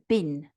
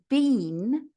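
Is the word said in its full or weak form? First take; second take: weak; full. First: The vowel is short and reduced. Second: The vowel is long and fully pronounced. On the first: "which is weakened to been" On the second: "and been"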